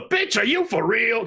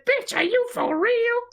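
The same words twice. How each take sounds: First: [name] voice. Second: Put-on Morrison accent. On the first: Retold or imitated. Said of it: "that was a Morrison accent". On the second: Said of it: "a Morrison accent out of reverence".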